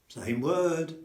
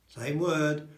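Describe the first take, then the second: No difference in how they are said.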